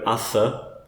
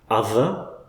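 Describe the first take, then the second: First: The th sound is voiceless, without vocal buzz. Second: The th sound is voiced, with vocal buzz. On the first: The speaker calls it wrong. "If in doubt, use the voiceless one" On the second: The speaker calls it right. "And then the voiced one"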